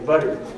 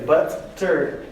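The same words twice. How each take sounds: First: The middle consonant is a quick tongue tap. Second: The middle consonant is a full, clear T. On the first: The speaker calls it right. "you just say butter" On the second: The speaker calls it wrong. "You don't say butter"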